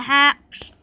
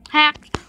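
First: "hacks" with a final s, no t; slip of the tongue. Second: "Hacked" ending in a clear t; self-correction. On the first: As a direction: says "hacks" instead of hacked. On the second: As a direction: fixes it to "Hacked" with a crisp t. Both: Real, not acted.

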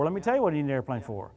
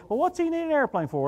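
First: Said in the usual way. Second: Higher, sneering question; mocking doubters. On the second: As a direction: mimic the skeptics who scoff at him. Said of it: "feel people go".

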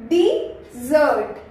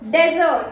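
First: "डिजर्ट" slowly split as di, ZERT; correct pronunciation. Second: "डेजर्ट" with a short "de" opening; common mispronunciation. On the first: Teacher modelling the word for sweets, correct pronunciation. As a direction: stretch "डिजर्ट" into two clear syllables, di-zert. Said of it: "क्या बोलते हैं". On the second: Trainer showing what learners say for sweets, mispronunciation. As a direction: say "डेजर्ट" as DEZ-ert, like desert. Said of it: "डेजर्ट नहीं बोलते". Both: Shown as a demonstration.

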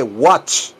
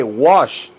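First: WATCH ending in a crisp "tch"; emphatic rising "watch" with a clear "t"; intended word. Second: Emphatic "wash" without any "t"; wrong word. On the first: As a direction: stress "watch" as the correction, closing on "ch". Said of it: "dije watch". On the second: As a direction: stress "wash" as the misheard word, with "sh". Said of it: "yo no dije wash". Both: Shown as a demonstration.

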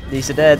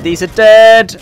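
First: Said in the usual way. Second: Loud urgent callout; combat callout. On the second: Real, not acted. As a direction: shout it across the fight. Repeated callout in a fight.

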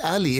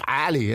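First: "Ali" with a plain English vowel, no throat sound; usual English pronunciation. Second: "Ali" with a throaty Arabic A; guttural Arabic pronunciation. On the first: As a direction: say "Ali" the anglicised way. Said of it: "Your name is not Ali". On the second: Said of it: "An is a guttural A". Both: Retold or imitated.

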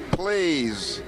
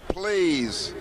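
The two takes are said the same way.

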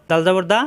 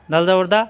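Both takes have the same delivery.

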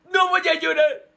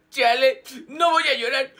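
First: Losing the fight against tears. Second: Loud, choked-up "I won't cry"; holding back tears. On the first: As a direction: break into mock crying while insisting. (rompiendo en llanto fingido, más agudo) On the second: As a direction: fight off tears, hammed-up. (aguantando el llanto, exagerado) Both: Acted. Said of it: "Yo ya estoy llorando".

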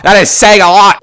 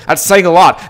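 First: "That is saying a lot" louder, with "is" hit hard; stress on "is". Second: Said in the usual way. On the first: Real, not acted. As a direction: punch "is" and rise at "lot". Repeats the phrase louder.

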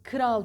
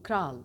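First: Kral said as "kıral"; loud faulty "kı-ral" for Kral; wrong extra vowel. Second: Kral with K and R joined; no vowel between k and r in kral; correct cluster. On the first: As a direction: split Kral with an ı after the K. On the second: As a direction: model kral as one syllable. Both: Shown as a demonstration. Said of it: "Kral değil".

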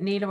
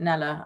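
First: "nila" with a long ee in the first syllable; first vowel of "nila" as in "knee"; NILA pronunciation. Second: "nela" with a short e in the first syllable; first vowel of "nela" as in "Nell"; NELA pronunciation. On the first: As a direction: say "nila" as NEE-la. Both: Shown as a demonstration. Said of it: "Carol says nila and you say nela".

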